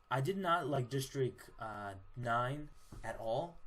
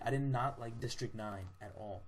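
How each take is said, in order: First: NOT hit hard, "nine at all" dragged out slowly; slow, stressed verdict; emphatic slow dislike. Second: Said in the usual way. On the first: Real, not acted. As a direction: lean on not and stretch "at all".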